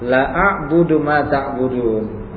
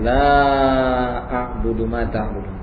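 First: The vowel of the first word is cut short. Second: The vowel of the first word is held long. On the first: I will indeed worship what you worship. The speaker calls it wrong. "Tapi kalau dibaca pendek" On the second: I will not worship what you worship. The speaker calls it right. "Dibaca panjang karena dia bentuk penafian"

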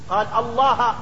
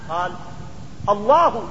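First: The word Allah ends with an a vowel. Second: The word Allah ends with a u vowel. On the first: The name is accusative after the preposition is removed. "أم فتحها" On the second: The name is nominative as the subject of a clause. "أم ضمها"

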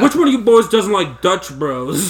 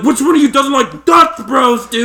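First: It is said in a calm tone. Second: It is said in an angry tone.

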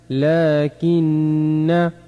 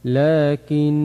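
First: The word ends with a short vowel after n. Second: The word ends on the consonant n. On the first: "نون فتحة نا لكن" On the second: "وفي حال الوقف"

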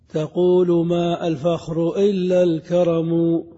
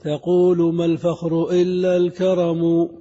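First: The article's glottal stop is clearly pronounced. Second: The article's glottal stop is dropped and linked. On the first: The verse's meter is restored by poetic license. The speaker calls it right. "استقام، لكن بضرورة وهي قطع الهمزة" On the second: The verse's meter is broken. The speaker calls it wrong. "ها انكسر البيت"

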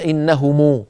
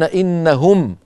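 First: The word ends with a u vowel after m. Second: The word ends on a silent m. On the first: The speaker calls it wrong. "إذا وقفوا لا يقولون" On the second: The speaker calls it right. "بالإسكان هكذا"

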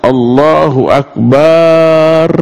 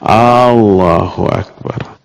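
First: The vowel in bar is drawn out long. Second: The first vowel of Allah is drawn out long. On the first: It means God is drums. "Atau yang dipanjangkan itu barnya" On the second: It asks whether God is great. "A-nya ini disatukan menjadi panjang"

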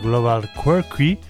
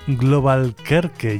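First: The name is pronounced with American English sounds. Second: The name is pronounced with Spanish sounds.

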